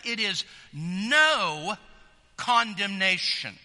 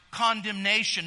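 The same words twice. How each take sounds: First: "no" slowed and leaned on, the whole phrase drawn out and louder; stress on no. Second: Said in the usual way. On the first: Shown as a demonstration. Preacher showing the congregation the emphasis, slow and pressed. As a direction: press hard on "no", let "condemnation" land heavy. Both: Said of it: "That's the emphasis".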